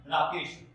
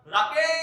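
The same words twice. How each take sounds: First: The name is said at normal length. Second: The name is called out with a long-drawn vowel.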